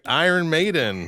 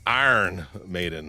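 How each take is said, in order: First: It is said in a standard accent. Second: It is said in a Pittsburgh accent.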